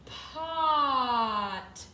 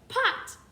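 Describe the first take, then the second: First: The word is stretched out slowly. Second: The word is said quickly.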